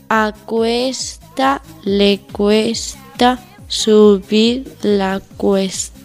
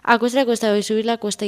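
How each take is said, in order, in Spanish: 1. Se dice a velocidad lenta. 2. Se dice a velocidad rápida. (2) "Velocidad rápida"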